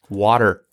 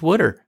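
First: It is said the standard way, like water. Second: It is said the Pennsylvania way, like would'er.

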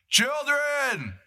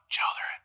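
First: The word is yelled loudly. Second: The word is said at normal volume. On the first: The caller is far away across the water. The speaker calls it right. "He's yelling" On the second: The caller is close by. The speaker calls it wrong.

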